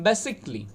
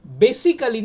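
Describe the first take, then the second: First: বেসিক্যালি as "BE-sik-li"; correct pronunciation. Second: বেসিক্যালি in four syllables, "be-si-ka-li"; the wrong, full বেসিক্যালি; common mispronunciation. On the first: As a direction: omit the vowel before "-li" in বেসিক্যালি. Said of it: "আইটা omit হয়ে যাবে". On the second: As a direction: sound the "a" in বেসিক্যালি. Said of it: "বেসিক্যালি না". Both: Shown as a demonstration.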